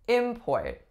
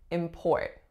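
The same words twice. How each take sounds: First: The stress is on the first syllable. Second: The stress is on the second syllable. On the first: It is used as a noun. "As a noun, that would have been the opposite" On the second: It is used as a verb. "Strongest syllable is the second"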